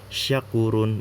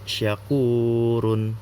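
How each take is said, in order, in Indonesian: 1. Vokal u dibaca pendek, satu ketukan. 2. Vokal u dibaca panjang, dua ketukan.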